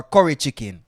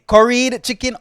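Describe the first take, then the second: First: "curry" ending on the vowel; second option, without ED. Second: "Curried" with a clear final D; first option, with ED. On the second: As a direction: stress the D ending of "Curried". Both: Shown as a demonstration. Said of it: "What do you guys say?".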